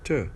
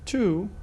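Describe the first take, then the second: First: The word has a short weak u vowel. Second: The word has a full long oo vowel. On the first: "If the following word starts with a vowel, then it is t, t" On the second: "that's the strong pronunciation"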